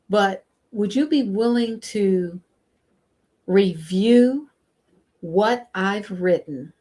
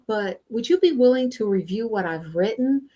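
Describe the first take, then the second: First: It is said slowly. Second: It is said at a natural pace.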